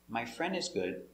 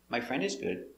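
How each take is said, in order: No difference in how they are said.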